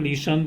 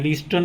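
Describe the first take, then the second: First: The t sound is silent in the middle. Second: The t sound is pronounced in the middle. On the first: The speaker calls it right. "इसको लिसन" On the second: The speaker calls it wrong. "लिस्टन नहीं बोलेंगे"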